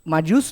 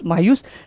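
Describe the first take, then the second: First: The middle consonant is a j sound. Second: The middle consonant is a y sound. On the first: This is how the name is spelled. "Spell करते वक्त" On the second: This is how the name is pronounced. "Pronunciation करते वक्त उसको हम मायूस बुलाते हैं"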